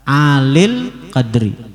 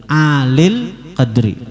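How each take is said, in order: No difference in how they are said.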